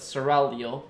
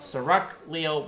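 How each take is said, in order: First: The l is said before the g. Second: The g is said before the l. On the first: The speaker calls it right. "make sure to pronounce them the other way around" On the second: The speaker calls it wrong.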